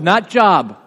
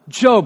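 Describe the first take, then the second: First: The vowel is short, rhyming with rob. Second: The vowel is long, rhyming with robe. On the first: This sounds like the ordinary word for work. The speaker calls it wrong. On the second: This is the biblical name. The speaker calls it right.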